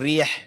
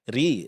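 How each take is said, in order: First: The vowel sits between 'a' and 'i'. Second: The vowel is a full, clear 'i'. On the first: The speaker calls it wrong. "Bukan rih" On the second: The speaker calls it right. "Vokal i-nya dipertahankan"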